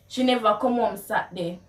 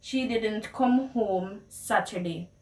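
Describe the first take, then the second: First: Quick Jamaican Patois delivery; fast Patois, NEVER carried. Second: Said in the usual way. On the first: Shown as a demonstration. Asking a friend where she was, in Jamaican Patois. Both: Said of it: "how you would translate the words".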